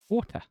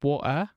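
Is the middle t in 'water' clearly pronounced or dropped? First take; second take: pronounced; dropped. First: The middle t sound is clearly pronounced. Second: The middle t sound is dropped. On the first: The speaker calls it right. "I put T's in my words" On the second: The speaker calls it wrong. "Not water"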